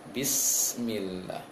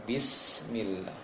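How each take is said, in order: No difference in how they are said.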